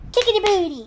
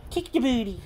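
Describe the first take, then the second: First: Much higher and louder squeal at the dog; squeaky pet talk. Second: Higher pet voice, lightly teasing; a gentle tease to the dog; playful pet talk. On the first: Teasing the dog. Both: Real, not acted.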